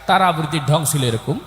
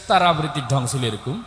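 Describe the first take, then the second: No difference in how they are said.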